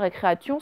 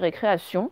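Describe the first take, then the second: First: The T is sounded as a hard T. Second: The T is sounded as an S. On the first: The speaker calls it wrong. "ça n'existe pas récréation" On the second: The speaker calls it right. "c'est récréation"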